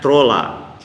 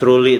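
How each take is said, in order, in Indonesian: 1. Kata ini diucapkan dengan cara baca ala Estonia, trolla. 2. Kata ini diucapkan seperti kata bahasa Inggris truly. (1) "ternyata kedetek itu bahasa Estonia, dibacanya trolla" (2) "Truly itu kan dalam dalam bahasa Inggris"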